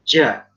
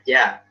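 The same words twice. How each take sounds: First: The j is heavy, thick and overly breathy. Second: The j is clean and crisp. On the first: The speaker calls it wrong. "orang Jawa kadang-kadang mendok huruf jim" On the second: The speaker calls it right. "Gimana ngucapinnya?"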